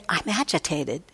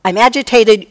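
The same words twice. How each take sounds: First: Soft, quiet, even I'm agitated; simply note the feeling gently; calm noting. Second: Loud, heated I'M AGITATED, blurted out; reactive outburst. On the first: Teacher showing a mindful noting of agitation, soft and calm. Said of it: "We can say". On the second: Teacher showing a reactive blaming outburst, loud and heated. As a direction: snap it out as if someone else caused it. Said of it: "And not immediately say". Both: Shown as a demonstration.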